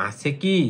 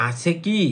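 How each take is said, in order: The two takes are said the same way.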